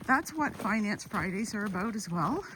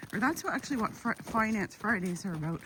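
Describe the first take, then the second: First: Said in the usual way. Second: Excited stumbling over words; tripping over the words in excitement; stuttering. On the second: Real, not acted. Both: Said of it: "I'm so excited I'm stuttering".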